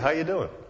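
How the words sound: It is tossed off casually, in passing.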